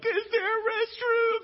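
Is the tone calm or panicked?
panicked. It is said in a panicked, anxious tone.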